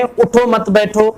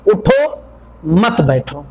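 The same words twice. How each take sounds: First: उठो मत बैठो run together without a break; no pause. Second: उठो set apart by a clear break, मत बैठो dropping in pitch; pause after उठो. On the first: Teacher showing confusion when nobody stops, उठो मत बैठो without pause. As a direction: say उठो मत बैठो in one unbroken, slow stretch. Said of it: "अगर हम बगैर रोके कहें". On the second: Teacher repeating the example for students, clear pause after उठो. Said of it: "के बाद हम रुके". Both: Shown as a demonstration.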